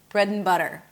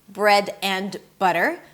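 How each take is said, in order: First: The words are linked with a reduced 'and'. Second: Each word is said separately with a full 'and'. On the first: The speaker calls it right. "I drop the d, I t reduce the a to uh" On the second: The speaker calls it wrong. "it's not going to be bread and butter"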